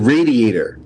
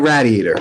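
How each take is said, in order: First: It begins with the same sound as 'radiates'. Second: It begins differently from 'radiates'. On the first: The speaker calls it right. "It radiates heat. It's a radiator" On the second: The speaker calls it wrong. "not a radiator"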